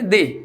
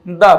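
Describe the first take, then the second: First: The vowel is long and high, like 'thee'. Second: The vowel is short and neutral, like 'thuh'. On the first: It comes before a vowel sound. "स्वर की आवाज से पहले हम इसको दी बोलेंगे" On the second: It comes before a consonant sound. "Consonant sound से पहले ... हम इसको बोलेंगे द"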